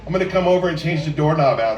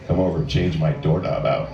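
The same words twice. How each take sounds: First: Said in the usual way. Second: Much lower, laughing seductive "doorknob"; sexy tone. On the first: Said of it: "normal things you can say". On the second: Shown as a demonstration. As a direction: drop deep and suggestive, half laughing. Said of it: "make it sound sexy by the tone of your voice".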